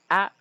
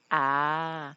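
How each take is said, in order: First: The vowel is short. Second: The vowel is long. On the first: "Breve e longo" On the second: "Breve e longo"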